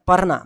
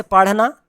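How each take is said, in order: First: पढ़ना said as "parna"; common wrong R. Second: पढ़ना with flapped ढ़; correct flapped R. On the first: Teacher quoting the usual mistake, plain R. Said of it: "बहुत लोग पढ़ना बोलते हैं". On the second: Teacher giving the right reading, flapped R. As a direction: say पढ़ना with a tongue flick. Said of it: "इसको ड़ा बोलते हैं". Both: Shown as a demonstration.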